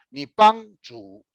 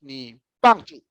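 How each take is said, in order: First: "Nippanchu" drawn out high, falling at the end; slow, higher, mistoned "Nippanchu"; another wrong intonation. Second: "Nippanchu" slow with the tones altered; slow mistoned "Nippanchu"; wrong-tone example. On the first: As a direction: stretch "Nippanchu" with misplaced high tones. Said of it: "da primeira pra outra entonação". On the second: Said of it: "Se você errou". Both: Shown as a demonstration.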